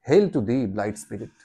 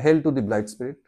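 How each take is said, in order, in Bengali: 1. লাইনটি প্রাণবন্ত, নানা আবেগ দিয়ে পড়া হচ্ছে। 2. লাইনটি সমান, একঘেয়ে সুরে পড়া হচ্ছে। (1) "আবার" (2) "এরকম করে পড়বে না"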